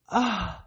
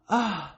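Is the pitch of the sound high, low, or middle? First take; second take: high; high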